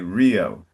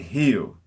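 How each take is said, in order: First: The word begins with a hard English r. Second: The word begins with a soft, h-like sound. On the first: The speaker calls it right. "We say Rio" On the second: The speaker calls it wrong. "We don't say Hew"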